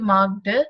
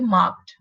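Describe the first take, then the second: First: The ending is a voiced d sound. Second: The ending is a voiceless t sound. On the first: The speaker calls it wrong. "so it not be marked" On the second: The speaker calls it right. "but it would be marked"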